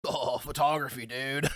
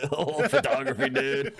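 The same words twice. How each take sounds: First: Lightly parodied stoner dude; self-imitation. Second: High-pitched echo through laughter; mocking mimicry. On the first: Imitating himself for his friend, lightly hammed dude voice. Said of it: "I'm done doing imitations of myself". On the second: Friend copying his self-imitation, laughing high-pitched mimicry. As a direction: laugh while parroting the dude voice.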